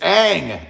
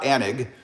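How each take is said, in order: First: The name is said with one syllable. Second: The name is said with two syllables. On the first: The speaker calls it right. "It's Ang" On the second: The speaker calls it wrong. "It's not Anig"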